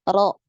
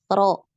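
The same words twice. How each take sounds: Both takes have the same delivery.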